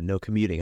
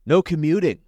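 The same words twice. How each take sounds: First: Said in the usual way. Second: "No commuting" punched higher and louder; emphatic punchline. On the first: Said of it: "what does commuting have to do". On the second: Shown as a demonstration. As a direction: land "No commuting" as a bold punchline. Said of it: "You didn't think I was gonna say that?".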